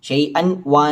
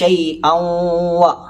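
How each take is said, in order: First: The n is heard clearly before a single w. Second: The n merges into a doubled, nasalized w. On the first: The speaker calls it wrong. "അവിടെ കട്ടിയില്ല, അഥവാ ഷെദ്ദില്ല" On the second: The speaker calls it right. "അതിന് കട്ടി കൊടുത്ത്. ... മണിക്കുകയും വേണം"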